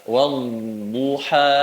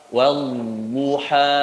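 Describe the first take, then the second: No difference in how they are said.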